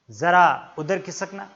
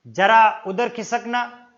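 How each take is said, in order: First: जरा said with a z sound from the throat, /zəra/; जरा with the Persian z; correct pronunciation. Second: जरा said with a plain j sound, /dʒəra/; जरा with a j, slowly; wrong pronunciation. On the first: Teacher showing the right way to say it, correct pronunciation. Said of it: "उच्चारण होना चाहिए जरा". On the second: Teacher demonstrating the wrong way in a bus, mispronounced. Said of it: "वो उच्चारण अगर गलत कर रहा है". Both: Shown as a demonstration.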